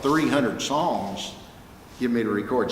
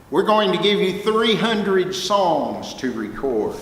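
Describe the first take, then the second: First: Amazed. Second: Said in the usual way. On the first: Real, not acted. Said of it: "I died and went to heaven".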